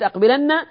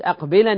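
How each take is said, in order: First: The final n is doubled and lengthened. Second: The final n is single and unvowelled. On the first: The command carries heavy emphasis. "إذا قلت أقبلن صارت نون توكيد ثقيلة" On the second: The command carries light emphasis. "أما إذا قلت أقبلن يا زيد فهي نون توكيد خفيفة"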